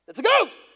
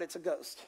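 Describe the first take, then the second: First: High, loud acted shriek; fearful cry. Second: Said in the usual way. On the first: Disciples in the boat see a figure on the water, fearful cry. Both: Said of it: "in the fear, they cried out".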